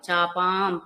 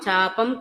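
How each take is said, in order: First: The second syllable has a long vowel. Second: The second syllable has a short vowel. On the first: The speaker calls it right. "ప దీర్ఘం వినిపించాలి" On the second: The speaker calls it wrong. "చాపం కాదు"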